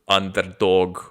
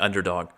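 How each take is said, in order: First: It is said with a Russian accent. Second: It is said with an American accent. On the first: "or whatever the hell you would say in Russian" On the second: "like I would in, in a good old American English"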